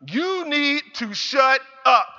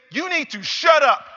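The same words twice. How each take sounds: First: Slow, stern repeat of the command; slow firm scolding. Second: Loud, higher, sharp scolding yell; mother's angry shout. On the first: Mother repeats her order to son, slow and stern. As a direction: drag each word out to drive it home. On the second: Mother lashes out at complaining son, angry shout. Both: Retold or imitated. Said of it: "she lashed out at me".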